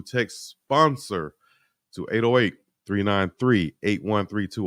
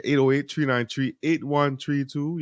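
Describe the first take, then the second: First: Said in the usual way. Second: Higher, drawled local way of saying numbers; local slang read. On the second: Shown as a demonstration. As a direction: say it like folks out here. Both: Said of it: "Or as we might say out here".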